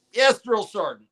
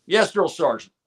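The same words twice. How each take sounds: First: High, eager recruit answer; barked military recruit reply. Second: Crisp, high recruit answer; barked military recruit reply. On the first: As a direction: answer like a private at attention. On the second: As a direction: snap back like a private. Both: Retold or imitated. Recruit answers drill sergeant.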